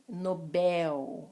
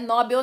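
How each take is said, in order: First: The stress is on the last syllable. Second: The stress is on the first syllable. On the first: The speaker calls it right. "Última sílaba mais forte" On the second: The speaker calls it wrong. "Não é Nobel nada"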